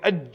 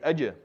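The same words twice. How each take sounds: First: The final consonant stops abruptly with no release. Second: The final consonant ends with a slight bouncing release. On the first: The speaker calls it wrong. "instead of saying aj, which is very difficult" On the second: The speaker calls it right. "say aj"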